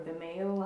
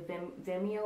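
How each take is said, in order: First: Vimeo said vih-MAY-oh; alternative pronunciation. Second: Vimeo said VIM-ee-oh; first pronunciation. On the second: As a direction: say Vimeo with the stress up front, VIM-ee-oh. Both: Shown as a demonstration. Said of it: "however you pronounce it".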